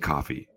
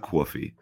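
First: It is said with a general American accent. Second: It is said with a New Jersey accent. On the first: This is how people elsewhere say it. The speaker calls it right. "We all say coffee" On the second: This mimics how a person from Jersey says it. The speaker calls it wrong. "It's not coffee"

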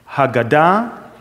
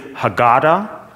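First: It is said with a Hebrew accent. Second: It is said with an American accent.

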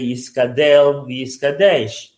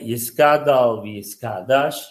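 First: The final syllables use an E vowel. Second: The final syllables use an open A vowel. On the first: The speaker calls it wrong. "there are also people that say" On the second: The speaker calls it right. "it's a patach the way Chabad and many, many chassidim say"

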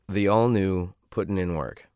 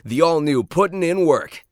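First: It is flat, bored and low in energy. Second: It is the most energetic and lively reading.

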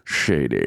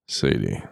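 First: Spoken in a Scottish accent, s sounding like sh. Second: Spoken in a low, slow, seductive voice. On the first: "you want a little bit of Sean Connery?" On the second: "I'm going to say your name in the sexiest voice I can just for you"

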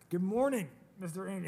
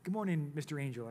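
First: The greeting is said louder. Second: The greeting is said at normal, softer volume.

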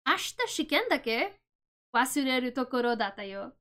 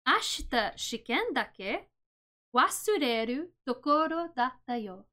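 First: It is said at normal speed. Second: It is said slowly.

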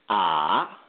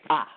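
First: The pitch dips down and comes back up. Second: The pitch drops sharply and quickly. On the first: "the third tone is a dip tone" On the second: "the fourth tone in Mandarin Chinese, is a sharp tone"

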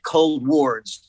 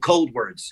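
First: The ending sounds like the word ward. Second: The ending sounds like the word words. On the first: The name refers to a hospital ward. "like a hospital ward, like a psychiatric ward" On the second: The name means moving toward the cold. "like forwards, like towards"

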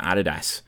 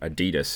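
First: The word is said the non-American way. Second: The word is said the American way.

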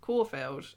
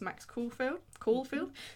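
First: The first syllable does not sound like 'cool'. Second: The first syllable sounds like 'cool'. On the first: The speaker calls it right. "I think is the way you say it" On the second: The speaker calls it wrong. "Sorry, I said it like cool"

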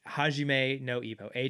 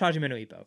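First: The phrase is said slowly and carefully. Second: The phrase is said very quickly. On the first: "Why don't you say it a little bit slower?" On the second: "one to say something super fast"

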